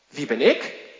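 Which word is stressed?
ik. The stress falls on the word ik. It asks why oneself was chosen.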